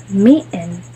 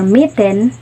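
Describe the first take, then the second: First: Mitten with a glottal stop for the t. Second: Said in the usual way. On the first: Shown as a demonstration. Teacher demonstrating glottal mitten to students. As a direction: say mitten as "mi'en", t stopped in the throat. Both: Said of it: "or mitten".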